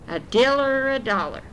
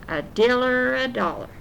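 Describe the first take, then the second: No difference in how they are said.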